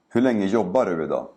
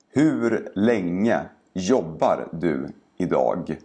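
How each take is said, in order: First: The sentence is spoken quickly and naturally. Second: The sentence is spoken slowly and carefully. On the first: "and then faster, like a native speaker would" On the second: "first say each sentence slowly"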